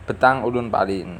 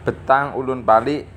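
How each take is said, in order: Both takes have the same delivery.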